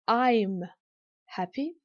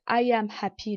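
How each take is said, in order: First: I am is contracted into one syllable. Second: I am is said as two full words. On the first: "la forme contractée" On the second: "la forme pleine"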